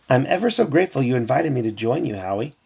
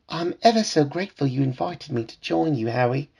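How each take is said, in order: First: It is read in the reader's ordinary accent. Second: It is read in a put-on British accent. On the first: The speaker calls it wrong. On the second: The speaker calls it right.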